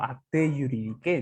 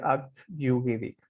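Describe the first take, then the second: First: The final e of acte is pronounced. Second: The final e of acte is silent. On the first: The speaker calls it wrong. "Cuando en realidad eso no es correcto" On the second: The speaker calls it right. "la pronunciación correcta sería"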